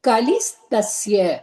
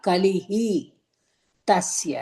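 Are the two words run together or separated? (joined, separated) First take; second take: joined; separated. First: The two words are run together as one. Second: The two words are said apart as two. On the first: "அப்படின்னு இருக்குமா" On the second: "இதை பிரிச்சு படிச்சோம்னா"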